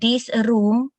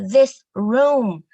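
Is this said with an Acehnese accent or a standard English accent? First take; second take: Acehnese; standard English. First: It is said with an Acehnese-tinted accent. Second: It is said with a standard native-like accent. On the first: A student speaks with their local identity. "our students speaking English with their own accent, with a tint of the Achenese" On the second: A teacher corrects the student's pronunciation. "no, no, no, no"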